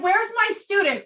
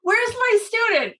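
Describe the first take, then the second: First: High eager calling for his student. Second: High, slow eager call for the student; eager call, drawn out. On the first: Urologist looking for his student, eager high call. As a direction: call out for her, keen and bright. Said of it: "He's like". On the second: Urologist calling through the day, slow eager call. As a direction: stretch it out, calling keenly. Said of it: "all day". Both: Retold or imitated.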